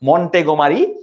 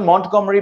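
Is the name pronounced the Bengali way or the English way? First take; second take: Bengali; English. First: The name is said with Bengali pronunciation. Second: The name is said with English pronunciation. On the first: "বাংলা উচ্চারণ" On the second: "ইংরেজিতে উচ্চারণ"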